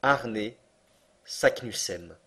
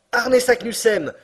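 First: Said in the usual way. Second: High, loud, slow triumphant shout; crying out. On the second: Acted. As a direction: proclaim the name in triumph. (s'écrier lentement, haut et fort) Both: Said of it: "s'écria mon oncle".

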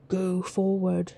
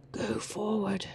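First: Said in the usual way. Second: Whispering. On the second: Real, not acted.

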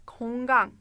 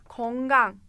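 Both takes have the same delivery.

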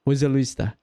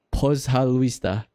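First: Said in the usual way. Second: "pozhaluista" drawn out slowly; demonstrating Russian. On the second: Shown as a demonstration. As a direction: teach "pozhaluista" with slow, stretched syllables.

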